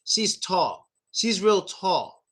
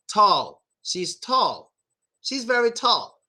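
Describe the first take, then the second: First: "tall" with a quarter of a W for the L. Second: "tall" finished with a full L sound; proper final L. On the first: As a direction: end "tall" with the tongue down, slightly W-like. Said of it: "twenty-five percent of a W sound". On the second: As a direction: lift the tongue for a clear L ending "tall". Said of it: "make the L sound at the end". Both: Shown as a demonstration.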